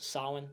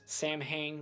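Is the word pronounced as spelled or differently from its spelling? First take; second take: differently; as spelled. First: The word is pronounced differently from its spelling. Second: The word is pronounced letter by letter, as spelled. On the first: The speaker calls it right. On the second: The speaker calls it wrong. "which is not how you pronounce it"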